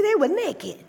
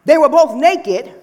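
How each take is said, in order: First: "naked" drawn out slowly for emphasis; stress on naked. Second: Said in the usual way. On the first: Shown as a demonstration. Preacher underlining the Bible's word to the congregation, emphasis on "naked". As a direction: lean on "naked", softer than a proclamation. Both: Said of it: "We put the emphasis on".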